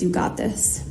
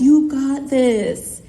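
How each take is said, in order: First: Low, near-whispered encouragement; hushed, low imitated pep talk; quiet reassurance. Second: Slow, stretched-out words; each word stretched for a lip-reader; exaggerated mouthing. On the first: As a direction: reassure softly under your breath. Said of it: "Caleb looks over to me and says". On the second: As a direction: imitate mouthing it over loud wind, very drawn out. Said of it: "Caleb mouths".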